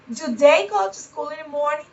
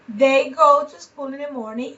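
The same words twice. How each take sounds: First: "do they go to school in the morning?" with a rising question tune at the end; question intonation. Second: Said in the usual way. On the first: Shown as a demonstration. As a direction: ask it, lifting "morning" upward. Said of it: "So you have the intonation".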